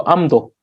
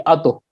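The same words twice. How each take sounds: First: "amdo" with an m closing the first syllable; smooth transition. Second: "ado" with no m before the d; unsmooth transition. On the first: Teacher showing the easier pronunciation, smooth m in "amdo". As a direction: say "amdo" gliding through m into do. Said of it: "makes the pronunciation more smoother". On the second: Teacher showing the awkward alternative, "ado" without the m. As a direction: say "ado" as bare a, then do. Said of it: "not a very smooth transition". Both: Shown as a demonstration.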